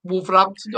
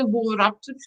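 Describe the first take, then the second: First: Wolverhampton said the Black Country way, dropped h, a drawn up; light Black Country accent on Wolverhampton. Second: Wolverhampton softer again, Black Country way, dropped h; light Black Country accent on Wolverhampton. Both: Shown as a demonstration. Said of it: "I have to do the accent today".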